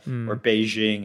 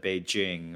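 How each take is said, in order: First: The J is a soft zh sound. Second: The J is a hard j sound. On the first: The speaker calls it wrong. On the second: The speaker calls it right.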